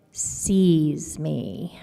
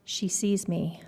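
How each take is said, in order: First: Sees stretched very slow and heavy; stress on sees. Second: Said in the usual way. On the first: Shown as a demonstration. Boy tells how the mom really looks at him, slow heavy sees. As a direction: drag out sees so it lands hard. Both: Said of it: "like, sees me".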